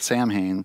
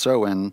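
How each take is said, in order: First: The word is sounded out letter by letter. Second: The word is said unlike its letters. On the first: The speaker calls it wrong. "if you phonetically pronounce it, it looks like Samhain" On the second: The speaker calls it right. "but it's pronounced Samhain"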